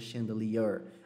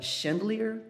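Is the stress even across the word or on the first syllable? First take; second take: even; first syllable. First: The stress is spread evenly across the syllables. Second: The stress falls heavily on the first syllable. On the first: The speaker calls it right. "É tipo uma mescla das duas coisas" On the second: The speaker calls it wrong. "com a força toda no chan"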